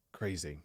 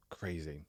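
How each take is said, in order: Both takes have the same delivery.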